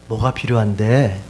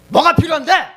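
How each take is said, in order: First: The question sounds warm and loving. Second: The question sounds angry and aggressive. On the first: The speaker cares about the listener. "내 감정이 사랑하는 우리 두 아들한테" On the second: The speaker is upset with the listener. "화가 났을 때는 뭐가 필요한데? 이러면은 이 말은 공격적이고 화내는 말이죠"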